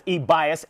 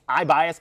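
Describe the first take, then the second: First: The first vowel sounds like "ee". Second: The first vowel sounds like "eye". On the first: The speaker calls it wrong. "it looks like it's pronounced as e-bias, and I know it's not pronounced e-bias" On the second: The speaker calls it right. "I think E is pronounced like an I. I think it's I-bias"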